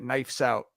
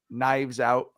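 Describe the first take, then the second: First: The first word ends with an f sound. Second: The first word ends with a v sound. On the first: The speaker calls it wrong. "I've been calling it Knifes Out" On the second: The speaker calls it right. "y'all know the movie uh Knives Out"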